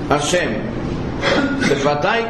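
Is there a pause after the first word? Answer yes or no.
yes. There is a pause after the first word. God is addressed, and it is the lips that are opened. The speaker calls it right. "Vocês perceberam que eu fiz uma pausa depois de Hashem?"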